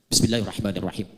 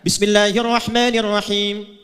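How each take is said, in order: First: It is recited softly, barely audible. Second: It is recited aloud in a full voice. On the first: It is the silent recitation only oneself hears. "kalau sudah silent, sir, tidak usah ditempel ke mic" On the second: It is the audible recitation. "Bisa dijaharkan"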